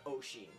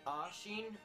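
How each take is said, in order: First: The name begins with an 'osh' sound. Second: The name begins with an 'ash' sound. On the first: "People either pronounce it Ashin or Oshin" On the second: "People either pronounce it Ashin or Oshin"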